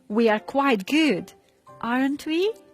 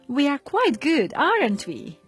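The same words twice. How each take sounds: First: The voice rises on the tag at the end. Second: The voice falls on the tag at the end. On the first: The speaker is not sure and wants an answer. "ask the question with a rising tone to indicate that you are not really sure" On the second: The speaker is sure of the opinion. "First, with a falling tone to indicate that you are sure about your opinion"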